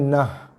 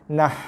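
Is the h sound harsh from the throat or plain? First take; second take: plain; harsh. First: The h is a plain, soft breathy sound. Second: The h is a harsh, tight throat sound. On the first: The speaker calls it wrong. "Tak nak baca dengan nah" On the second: The speaker calls it right. "Ha pedas eh"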